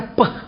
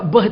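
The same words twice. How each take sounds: First: "peh" with a puffed, unvoiced p; Chinese reading. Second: "beh" with a voiced b; letter as written. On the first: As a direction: say "peh" with a sharp p. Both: Shown as a demonstration. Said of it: "beh itu dibaca peh".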